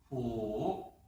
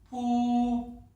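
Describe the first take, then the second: First: The pitch dips low, then rises. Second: The pitch stays high and level. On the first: "삼성" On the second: "먼저 일성부터 들려드리겠습니다"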